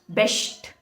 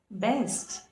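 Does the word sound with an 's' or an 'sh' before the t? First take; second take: sh; s. First: It is said with an sh sound before the t. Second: It is said with an s sound before the t. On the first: The speaker calls it wrong. "people pronounce these words like um" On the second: The speaker calls it right. "how we need to pronounce them is"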